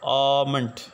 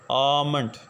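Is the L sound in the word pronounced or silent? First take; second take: silent; silent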